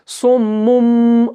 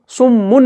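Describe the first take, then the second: First: सुम्मुम with a held nasal म, drawn out; correct iqlab reading. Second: सुम्मुन ending on a plain न sound; wrong reading. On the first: Teacher shows students the right reading सुम्मुम, slowly drawn out. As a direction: stretch सुम्मुम, ending on a humming म. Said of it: "हम कैसे पढ़ते हैं?". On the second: Teacher shows students the wrong reading सुम्मुन, ending on न. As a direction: say सुम्मुन with a clear न at the end. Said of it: "सुम्मुन नहीं पढ़ते हैं". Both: Shown as a demonstration.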